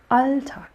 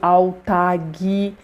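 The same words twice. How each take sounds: First: The stress falls on the first syllable. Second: The stress falls on the last syllable. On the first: The speaker calls it right. "a sílaba tônica no início" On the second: The speaker calls it wrong. "você ainda trouxe a sílaba tônica para o lugar errado"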